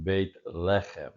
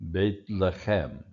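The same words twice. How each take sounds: First: Beit Lechem, slowly, with LE of Lechem stressed; slow Beit Lechem, weight on "Le"; stress on first syllable of Lechem. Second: Beit Lechem, slowly, with CHEM of Lechem stressed; slow Beit Lechem, weight on final "chem"; stress on last syllable. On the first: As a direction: say "Beit Lechem" with "Lechem" accented at its start. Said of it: "let's go back and do that one again". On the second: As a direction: say "Beit Lechem" with "Lechem" accented at its end. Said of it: "the pronunciation accent's here". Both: Shown as a demonstration.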